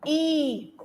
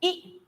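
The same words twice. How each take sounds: First: ई drawn out as a long ee sound. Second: ई said short and clipped as in hit. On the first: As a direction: stretch the ई into a long vowel as in tree. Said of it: "ये लंबी आवाज ई की आ जाती है". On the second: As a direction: cut the ई short like the vowel in hit. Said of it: "छोटी ई की आवाज है". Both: Shown as a demonstration.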